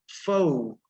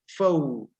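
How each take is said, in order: Both takes have the same delivery.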